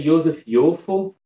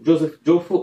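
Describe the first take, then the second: First: The names begin with a Y sound. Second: The names begin with a J sound. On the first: "provavelmente é assim, porque é um judeu" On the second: "eu não sei se é essa a pronúncia"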